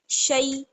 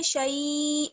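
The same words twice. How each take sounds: First: The vowel is said short and quick. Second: The vowel is drawn out long. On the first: The speaker calls it right. "जल्दी से पढ़ना है" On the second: The speaker calls it wrong. "शई ऐसे खींचना नहीं है"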